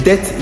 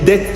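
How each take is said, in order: The two takes are said the same way.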